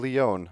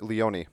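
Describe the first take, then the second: First: "Leone" with a silent final E, Lee-OWN. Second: "Leone" ending like "pony"; Leone as Lee-OH-nee. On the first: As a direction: say "Leone" in two syllables, rhyming with "bone". Host unsure how surname is said. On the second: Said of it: "or is it Leone?". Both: Real, not acted.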